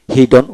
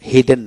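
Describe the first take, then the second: First: হিডন ending in "don", not "den"; o in last syllable. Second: হিডেন with an e in the last syllable; mistaken e vowel. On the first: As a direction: end হিডন on an o sound. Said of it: "হিডন উচ্চারিত হয়". (হিডন, শেষে ডন উচ্চারণ) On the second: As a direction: end হিডেন on "den". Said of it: "হিডেন না". (হিডেন, শেষে ডেন বলে ভুল উচ্চারণ) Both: Shown as a demonstration.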